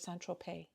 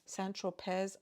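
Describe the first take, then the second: First: The final z sound is left silent. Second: The final z sound is pronounced.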